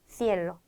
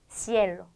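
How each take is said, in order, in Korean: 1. 첫 자음은 th 소리입니다. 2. 첫 자음은 s 소리입니다. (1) "스페인에서 번데기로 발음을 한다면" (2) "쌍시웃 발음에 익숙한데요"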